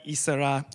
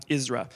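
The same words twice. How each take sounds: First: Isra said in three syllables, "ee-sa-RAH"; Thai word. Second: Isra in two syllables, "IZ-rah"; blended name. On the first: Father explaining the Thai half of the name, "ee-sa-RAH". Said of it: "So Ezra". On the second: Father putting his son's name together, "IZ-rah". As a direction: say Isra as "IZ-rah", falling at the end. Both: Shown as a demonstration.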